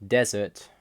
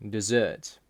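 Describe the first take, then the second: First: "desert" stressed on the first syllable, DEZ-ert. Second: "dessert" stressed on the second syllable, de-ZERT; weak first syllable, lean on the end of "dessert". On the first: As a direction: hit the first syllable of "desert", weak second. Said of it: "In English, we emphasize syllables". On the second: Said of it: "which part you emphasize". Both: Shown as a demonstration.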